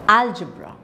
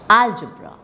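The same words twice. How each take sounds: The two takes are said the same way.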